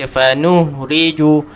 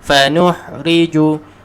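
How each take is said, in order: No difference in how they are said.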